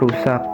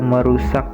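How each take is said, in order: First: The word starts without the syllable me. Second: The word begins with the syllable me.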